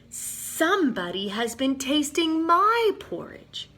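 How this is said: It is said in a middle-sized voice. The middle-sized bear is speaking. "he said in his middle-sized voice"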